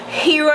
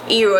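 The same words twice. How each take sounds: First: It is said with the H, English accent. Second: It is said without the H, Patois accent. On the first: "in English" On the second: "in Patois"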